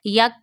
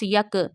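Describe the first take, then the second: First: The k is held quietly without a bounce. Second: The k is released with an echoing bounce. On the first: The speaker calls it right. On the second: The speaker calls it wrong.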